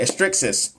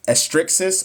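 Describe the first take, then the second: First: Said in the usual way. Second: Tentative, higher, rising question on estrixis; unsure pronunciation. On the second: Real, not acted. Nurse trying a hard term for viewers, unsure. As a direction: sound out estrixis as a guess.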